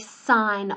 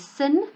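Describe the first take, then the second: First: The vowel is long, like in fine. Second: The vowel is short, like in pin. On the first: The speaker calls it right. "we still say sine of theta" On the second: The speaker calls it wrong. "you'll be tempted to say sin"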